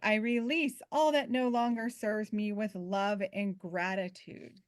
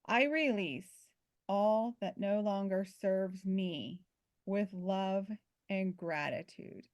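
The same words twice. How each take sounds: First: The sentence is spoken at a fast pace. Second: The sentence is spoken at a slower pace.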